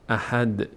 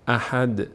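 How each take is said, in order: Both takes have the same delivery.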